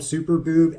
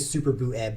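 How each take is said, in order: First: The ending is merged into one syllable. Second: The ending is split into two syllables. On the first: The speaker calls it wrong. "I used to just call him Super Boob and I was not comfortable with that" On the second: The speaker calls it right. "I'm now going to really pronounce that Eb"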